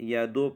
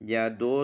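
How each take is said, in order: Both takes have the same delivery.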